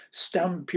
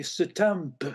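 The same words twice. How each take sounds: First: Said in the usual way. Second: "stamp" said slowly as "suh-tamp"; "stamp" with a vowel slipped in after the s, slow; extra vowel inserted. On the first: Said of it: "instead of saying stamp". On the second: Shown as a demonstration. Doctor demonstrating a stroke patient's added sound, slow "suh-tamp". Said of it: "you say stamp".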